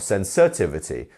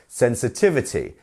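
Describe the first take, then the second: First: The stress is on a syllable other than 'tiv'. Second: The stress is on the syllable 'tiv'. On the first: The speaker calls it wrong. "not sensitivity" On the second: The speaker calls it right. "It's our tiv"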